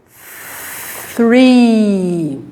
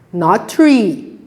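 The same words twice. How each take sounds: First: Three with th, tongue between teeth. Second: Tree said with a plain T, no th; contrast: tree without th; wrong tree. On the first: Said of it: "So here we say". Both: Shown as a demonstration.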